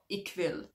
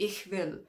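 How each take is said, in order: First: The ch is a hard K sound. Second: The ch is a soft breathy fricative. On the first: The speaker calls it wrong. "It's not Ich will" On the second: The speaker calls it right. "the easiest example is probably Ich will"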